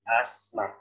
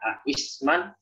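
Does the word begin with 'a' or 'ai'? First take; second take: a; ai. First: The connecting hamzah is dropped after the question vowel. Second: The connecting hamzah is kept after the question vowel. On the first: This is the lighter form actually recited. The speaker calls it right. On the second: This is the underlying form before simplification. The speaker calls it wrong.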